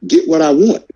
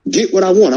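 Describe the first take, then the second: First: "get what I want?" asked with a rising, pleading tune; pleading question. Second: "Get what I want." pitched higher and falling firmly; insistent demand. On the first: Fan asking fighters for real fights, pleading question. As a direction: ask the boxers for it. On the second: Fan insisting to boxers on wanted fights, firm demand. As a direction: insist on it, no longer asking. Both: Real, not acted. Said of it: "can I please, as a fan".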